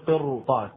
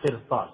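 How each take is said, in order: First: قرطاس said with a thick, emphatic ر; heavy ra. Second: قرطاس said with a thin, light ر; teacher mimics قرطاس with a softened ر; wrong thin ra. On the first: Teacher models the correct heavy ر for students. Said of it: "فتفخم الراء". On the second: Teacher imitates the wrong thin ر in قرطاس. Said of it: "ولا تقول قرطاس". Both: Shown as a demonstration.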